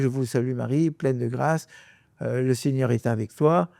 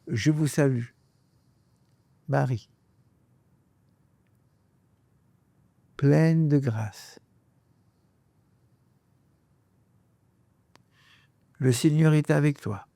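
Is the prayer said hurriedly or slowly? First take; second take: hurriedly; slowly. First: The phrases are rushed together quickly. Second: Each phrase is said slowly and separately. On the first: The speaker calls it wrong. "Vous dites pas" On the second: The speaker calls it right. "vous prenez le temps de chaque phrase"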